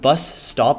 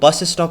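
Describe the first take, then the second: First: 'Stop' starts directly with the s sound. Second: An extra vowel is added before 'stop'. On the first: The speaker calls it right. "वो bus स्टॉप है" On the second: The speaker calls it wrong. "वो bus स्टॉप नहीं है भाई"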